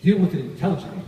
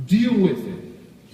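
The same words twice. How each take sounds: First: Said in the usual way. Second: Deal with it stretched very slowly; slow, drawn-out command. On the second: Shown as a demonstration. Coach telling salespeople to face objections, very slow. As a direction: drag out Deal with it for weight.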